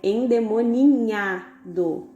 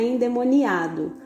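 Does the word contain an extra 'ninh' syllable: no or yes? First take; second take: yes; no. First: The word is said with the 'ninh' syllable. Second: The word is said without the 'ninh' syllable. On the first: The speaker calls it right. "o jeito certo, tanto da pronúncia quanto da escrita, é endemoninhado" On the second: The speaker calls it wrong. "Nós falamos errado, não é endemoniado"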